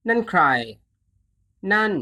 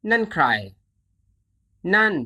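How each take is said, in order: Both takes have the same delivery.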